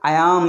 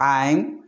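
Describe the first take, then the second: First: Two separate words are said in full. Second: The two words are merged into one syllable. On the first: "ఐ యామ్ is called ఐమ్" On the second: "దీని short form వచ్చేసి ఐమ్"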